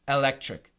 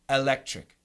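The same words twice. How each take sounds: First: The first vowel is a short e sound. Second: The same.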